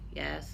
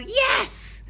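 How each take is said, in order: First: It is said with a flat, unimpressed tone. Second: It is said with an excited, enthusiastic tone. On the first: The dog did something the handler did not like. "When the dog does something we don't like" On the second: The dog did something the handler really liked. "when our dog does something that we really like, we might go"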